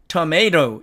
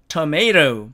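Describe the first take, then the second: No difference in how they are said.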